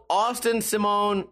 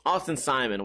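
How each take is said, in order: First: Simone with stress on the second syllable, rhyming with phone; mispronounced surname. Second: Simon with stress on the first syllable, "SIGH-mun"; corrected surname. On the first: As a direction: say Simone as "see-MOAN". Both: Real, not acted. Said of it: "Why do I always say Simone?".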